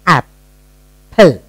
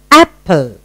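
First: "Apple" with a long gap mid-word; split into syllables. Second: Said in the usual way. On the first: Shown as a demonstration. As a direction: sound out "Apple" part by part. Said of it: "What's the first part of the sound?". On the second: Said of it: "You have broken up".

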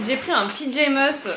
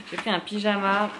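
First: Pyjamas said like piʒɛmœs, a stumbled mangled pronunciation; garbled word. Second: Said in the usual way. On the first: Real, not acted. Vlogger fumbling an item name while showing her haul, stumbling. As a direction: trip over pyjamas, saying it like an English-ish piʒɛmœs.

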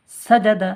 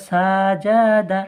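First: সাজাদা said quickly with short, even vowels; quick, unstretched reading. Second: সাজাদা with its vowels stretched long; drawn-out wrong reading. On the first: Teacher correcting students' reading, quick সাজাদা without stretching. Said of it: "তাড়াতাড়ি পড়তে হয়". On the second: Teacher showing students a mistake, drawn-out সাজাদা with long vowels. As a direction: drag out each vowel in সাজাদা. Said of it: "ভুল". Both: Shown as a demonstration.

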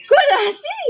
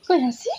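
First: High-pitched coaxing question; high baby coo. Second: Said in the usual way. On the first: Acted. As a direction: squeak it up high to get a smile.

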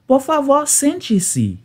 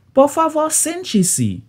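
The two takes are said the same way.

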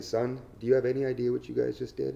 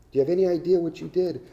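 First: Said in the usual way. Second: Higher, louder, faster "Do you have any idea"; stern scolding. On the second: Retold or imitated. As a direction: drive it home like an angry lawyer. Lawyer scolding the prisoners.

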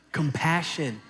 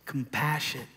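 First: With gusto. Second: Said in the usual way. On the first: Shown as a demonstration. Preacher urging the congregation to say it with gusto. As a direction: punch COMPASSION out with gusto. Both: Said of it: "now you can say it with all your little gusto".

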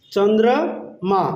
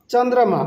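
First: Slow "চন্দ্র - মা" with a gap; broken into syllables. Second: Said in the usual way. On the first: Shown as a demonstration. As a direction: stretch "Chandra", pause, then "মা". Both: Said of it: "চন্দ্রকে আমরা বলবো".

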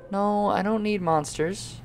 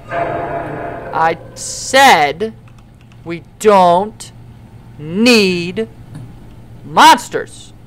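First: Soft, drawn-out objection; quiet, wary protest; uneasy refusal. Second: "we don't need monsters" spaced out word by word; firm, halting stress building to "monsters"; emphatic repetition. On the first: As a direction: say "No, I don't need monsters" softly, trailing upward. Objects to monsters appearing. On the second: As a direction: pause before "need" and "monsters", hitting each loudly. Repeats objection more firmly. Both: Pretend.

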